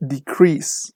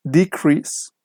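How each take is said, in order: First: DeCREASE, second syllable drawn out; verb stress. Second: DEcrease, first syllable stressed; noun stress. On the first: Teacher shows students the verb form, slow stress on CREASE in "decrease". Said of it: "the stress is on the second syllable". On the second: Teacher shows students the noun form, stress on DE in "decrease". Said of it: "the stress is on the first syllable". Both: Shown as a demonstration.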